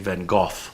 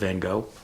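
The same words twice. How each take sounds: First: The name is said with a British pronunciation. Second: The name is said with an American pronunciation. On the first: "the British say Van Gogh" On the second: "instead of Van Gogh"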